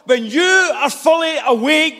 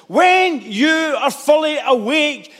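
First: Shouted preaching. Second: Drawn-out, weighty delivery; slow it down to let it land; slow emphatic. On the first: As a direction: call it out to the congregation. Repeated line, shouted first. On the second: Repeated line, slowed down. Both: Acted.

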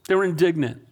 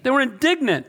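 First: Said in the usual way. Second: They were indignant, raised high and stressed on indignant; emphatic reveal. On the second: Shown as a demonstration. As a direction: land indignant hard as the answer. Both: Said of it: "What's the word there?".

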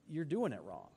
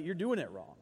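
First: "you're doing it wrong" said softer through a chuckle; softly laughing. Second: Said in the usual way. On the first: Real, not acted. Preacher chuckling as he tells the congregation: softly laughing. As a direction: let a laugh slip under the words.

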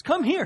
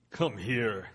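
First: High loud shout; plain. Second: Low, deep giant voice; Goliath voice. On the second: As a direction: rumble it like a giant. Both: Acted. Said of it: "Let me do my Goliath voice".

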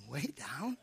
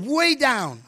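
First: Very soft, low questioning WAY DOWN, rising at the end; hushed incredulous repeat of "Way down?"; puzzled inner echo. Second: Said in the usual way. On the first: Retold or imitated. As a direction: murmur "Way down?" to yourself in doubt. Puzzled inward echo of the answer.

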